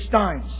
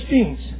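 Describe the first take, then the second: First: The last syllable has the vowel of 'lines'. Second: The last syllable has the vowel of 'teens'. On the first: The speaker calls it wrong. "I slip sometimes and say Steins" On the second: The speaker calls it right. "No, let's say Steens"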